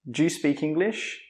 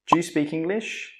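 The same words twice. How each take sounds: First: It is said quickly with 'do you' reduced. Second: The same.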